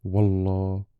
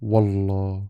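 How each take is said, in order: First: It is said calmly in a natural tone. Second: The same.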